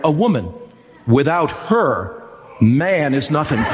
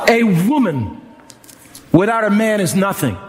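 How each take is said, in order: First: It is said with pauses around 'without her'. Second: It is said as one phrase without inner pauses.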